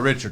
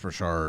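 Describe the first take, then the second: First: The name is pronounced the English way. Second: The name is pronounced the French way. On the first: The speaker calls it wrong. "It's not Richard" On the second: The speaker calls it right. "it's Richard"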